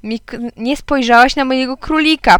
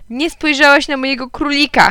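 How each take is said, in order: First: Said in the usual way. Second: Put-on high, hurt child's complaint; mild whimper. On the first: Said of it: "powiedziałem". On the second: A narrator's reading. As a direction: whimper it lightly, pitched up. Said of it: "chlipnąłem". (lekko płaczliwy głos dziecka)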